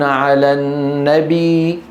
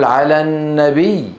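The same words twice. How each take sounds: First: The final ya is drawn out as a long vowel. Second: The final ya is doubled with a clear geminate. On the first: The speaker calls it wrong. "نبي هذه صارت ياء مادية" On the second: The speaker calls it right. "بين التشديد"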